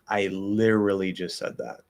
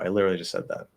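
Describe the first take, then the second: First: It is spoken at a slower, normal pace. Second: It is spoken at a fast pace. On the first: The speaker calls it wrong. "if you're on the slower end of normal" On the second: The speaker calls it right. "definitely fast speech, no problem"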